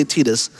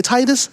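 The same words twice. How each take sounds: First: "Titus" said TEE-dus; long E as in "tee" in "Titus"; TEE-dus pronunciation. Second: "Titus" said TIE-dus; long I as in "tie" in "Titus"; TIE-dus pronunciation. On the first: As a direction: say "Titus" with a first syllable like "tee". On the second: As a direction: say "Titus" with a first syllable like "tie". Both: Shown as a demonstration. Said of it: "how you pronounce the main character's name".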